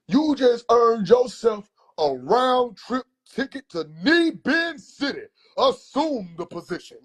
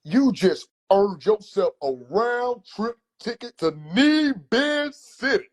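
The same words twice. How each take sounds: First: Slow, much higher mock-grand uncle voice; hammed-up uncle sentencing, drawn out; grand, slow punishment decree; theatrical uncle. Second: Slow, higher mock-grand uncle announcement; hammed-up uncle handing down a sentence; slow, lofty pronouncement; theatrical uncle. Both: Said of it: "he gotta be theatrical".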